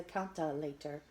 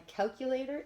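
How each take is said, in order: First: Put-on "calculator" garbled as a small child says it; little kid's mispronunciation. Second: Said in the usual way. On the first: A narrator's reading. Big sister translating Emma language, "calculator" mispronounced in little-kid talk. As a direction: muddle the middle of "calculator" into something like "cal-ta-lator". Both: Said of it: "the only one who understands Emma language".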